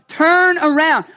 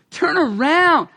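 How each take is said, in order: First: Urgent loud plea. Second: Slow gentle turn around; compassionate. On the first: Preacher pleading with sinners, urgent loud call. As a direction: turn around called out loud and urgent. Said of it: "this word repent has become like the angry preacher's". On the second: Preacher showing repent as compassionate, slow and gentle. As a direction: say turn around slowly and tenderly. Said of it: "It's a compassionate word". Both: Shown as a demonstration.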